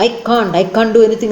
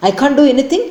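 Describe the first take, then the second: First: "I can't, I can't do anything" slow, every word separated; each word clear. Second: Higher, indignant question; furious retort. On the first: Namita enunciating every word to her husband, slowly. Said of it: "pronounces each word clearly". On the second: Namita angrily challenging her husband, higher pitched. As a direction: throw anything back at him. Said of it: "Almost panting". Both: A narrator's reading.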